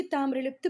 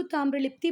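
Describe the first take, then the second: First: ताम्रलिप्त ending on a bare "pt", no final "i"; alternative name form. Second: ताम्रलिप्ति ending in a clear "tee"; alternative name form. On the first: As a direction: say ताम्रलिप्त closing on the consonants. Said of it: "भी बोलते हैं कुछ लोग इसको". (ताम्रलिप्त, अंत में "ई" के बिना) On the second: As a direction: say ताम्रलिप्ति with a final "i" vowel. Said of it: "कुछ लोग उसको ताम्रलिप्ति बोलते हैं". (ताम्रलिप्ति, अंत में "ति" के साथ) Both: Shown as a demonstration.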